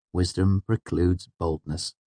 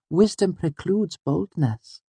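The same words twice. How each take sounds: First: Said in the usual way. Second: Put-on very high, slow girl character; high-pitched, measured little sage; sententious Auri. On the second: A narrator's reading. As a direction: pronounce the maxim slowly in a high girlish voice. Auri's character voice states a maxim.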